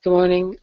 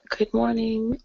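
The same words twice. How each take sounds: First: Said in the usual way. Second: Groggy just-woken voice; sleepy rough morning voice. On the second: Real, not acted. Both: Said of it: "You got your morning voice on".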